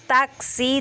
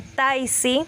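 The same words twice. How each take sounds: First: Said in the usual way. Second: "taisi" instead of taxi; epenthesis. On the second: Shown as a demonstration. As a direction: say "taisi" with an i added, slowly. ("taisi" con i añadida) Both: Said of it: "En vez de decir taxi".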